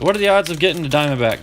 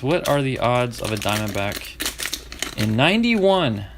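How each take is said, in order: First: Said in the usual way. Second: Slow, leaning hard on "ninety-one"; stress on ninety-one. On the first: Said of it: "Key, key phrase". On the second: Shown as a demonstration. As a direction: land the weight on "ninety-one". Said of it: "Key, key phrase, ninety-one".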